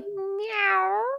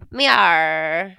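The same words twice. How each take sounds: First: A plain cat-like meow, no pirate voice. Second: A meow in a gruff pirate voice.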